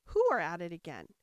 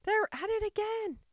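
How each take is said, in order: First: Lower-pitched, cautious question; Alice tentatively asking, first word stressed; venturing to ask. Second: High-pitched, loud acted shout; top-of-voice shout. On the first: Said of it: "she ventured to ask". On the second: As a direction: shout the news at full pitch. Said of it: "shouted at the top of his voice". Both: A narrator's reading.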